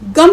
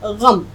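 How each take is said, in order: First: It begins with a plain, hard g sound. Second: It begins with a throaty, fricative gh sound. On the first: The speaker calls it wrong. "गम नहीं होता है" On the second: The speaker calls it right. "उच्चारण सीखिए ग़म"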